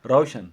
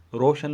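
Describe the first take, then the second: First: روشن said as rau-shan, the waw as a diphthong after zabar; correct pronunciation. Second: روشن read wrongly as ro-shan, with a plain o; the mistaken روشن, ro-shan, set up to be corrected; wrong pronunciation. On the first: Teacher giving the correct رَوشن, rau-shan, after the wrong one. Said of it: "ہم پر پڑھتے ہیں روشن". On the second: Teacher showing the wrong reading of روشن as ro-shan. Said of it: "روشن نہیں ہے". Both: Shown as a demonstration.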